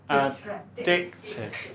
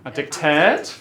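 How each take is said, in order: First: The stress is on the second syllable. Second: The stress is on the third syllable. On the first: The speaker calls it right. "The second one" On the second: The speaker calls it wrong.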